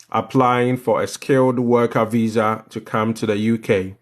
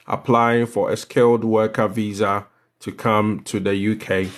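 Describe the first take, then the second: No difference in how they are said.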